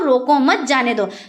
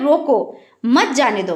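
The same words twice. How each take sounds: First: The pause comes right after the word 'mat'. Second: The pause comes right after the word 'roko'. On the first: Do not stop the person; let them go. "रोको मत, यानी उसको ना रोको, उसको जाने दो" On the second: Stop the person and do not let them go. "मतलब जो कोई है, कोई शख्स है तो उसको रोक लो और जाने ना दो"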